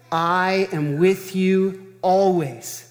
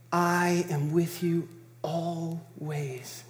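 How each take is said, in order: First: Slow, stress on with; weighty promise, each word placed; emphatic. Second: Soft, slow, stress on "I"; intimate, slow promise with I stressed; emphatic on I. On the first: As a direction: lean into "with", slow and deliberate. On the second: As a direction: press the "I", quiet and slow. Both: Shown as a demonstration. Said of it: "the wording here is emphatic".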